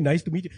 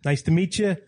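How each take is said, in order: First: Put-on Indian accent. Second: Put-on New York-accented greeting; Long Island accent. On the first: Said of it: "most Indian guys are like". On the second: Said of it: "Everybody there talks like this".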